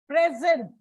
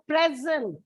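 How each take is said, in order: First: The stress is on the second syllable. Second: The stress is on the first syllable. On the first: It is used as a verb. "it is a verb. So it is put on the second syllable" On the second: It is used as a noun. "noun. So it is put on the first syllable"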